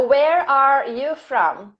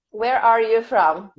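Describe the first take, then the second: First: Slow, measured dictation; unhurried teacher reading out a question. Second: Said in the usual way. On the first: Shown as a demonstration. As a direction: stretch each word out for students writing it down. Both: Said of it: "This is dictation".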